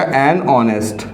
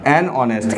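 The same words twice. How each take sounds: First: Slow demo. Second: Said in the usual way. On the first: Shown as a demonstration. Teacher to students, showing "an honest", slowly. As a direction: spell "एन honest" out word by word. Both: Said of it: "तो यहाँ पर लग जाएगा एन".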